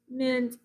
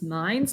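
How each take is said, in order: First: The vowel is a short I sound. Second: The vowel is a long I sound.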